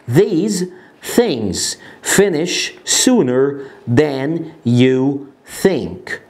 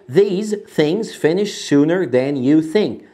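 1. الجملة تُقال ببطء وبعناية. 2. الجملة تُقال بسرعة. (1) "هننطقها الأول بالراحة" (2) "أسرع شوية"

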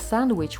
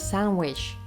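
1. Звук d у слові 'sandwich' чітко вимовляється. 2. Звук d випадає, а n звучить як m. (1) "Instead of sandwich" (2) "we hear sandwich"

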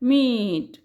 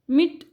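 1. स्वर दीर्घ आहे, लांबवलेला. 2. स्वर ह्रस्व आहे, झटकन संपणारा. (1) "उच्चार थोडासा लांब केलेला असतो" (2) "मिट असं नाही"

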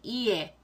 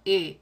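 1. 이 소리는 천천히 두 부분으로 늘여서 나요. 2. 이 소리는 빨리, 하나의 활음처럼 미끄러지듯 나요.

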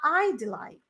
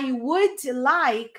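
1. 'I would' é encurtado em uma sílaba. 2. 'I would' é falado como duas palavras completas. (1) "É a forma curta" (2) "ao invés de você falar I would like"

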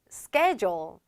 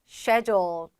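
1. 미국식 억양으로 발음해요. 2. 영국식 억양으로 발음해요. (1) "미국식 발음으로 들어가게 되면" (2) "영국이나 호주식으로 들어가게 되면"

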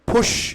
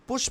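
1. p ধ্বনিটি জোরালো মহাপ্রাণ। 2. p ধ্বনিটি অল্পপ্রাণ।

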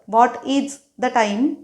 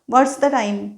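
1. 'What is' हे दोन पूर्ण शब्द म्हणून म्हटले जाते. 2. 'What is' हे एका अक्षरात आखूड करून म्हटले जाते. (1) "व्हॉट इज द टाईम ऐवजी" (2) "बोलताना म्हणायचं व्हॉट्स द टाईम"

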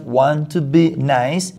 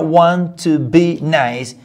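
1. La voz sube al final, como en una pregunta. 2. La voz baja al final, como en una afirmación. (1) "si lo hago en tono de entonación" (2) "con que yo diga want to be nice y me señale a mí, la otra persona entiende"

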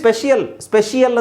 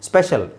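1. ಕೊನೆಯಲ್ಲಿ ಒಂದು ಹೆಚ್ಚುವರಿ 'ee-ya' ಶಬ್ದ ಇದೆ. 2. ಕೊನೆಯಲ್ಲಿ ಚಿಕ್ಕ '-shal' ಶಬ್ದ ಇದೆ. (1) "ಸ್ಪೆಷಿಯಲ್ ಅಂತ ಹೇಳ್ಬೋದಲ್ಲ" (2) "ಸರಿಯಾಗಿ ಸ್ಪೆಷಲ್ ಅಂತಲೇ ಕೇಳ್ತಾ ಬಂದಿದ್ದೀರಾ"

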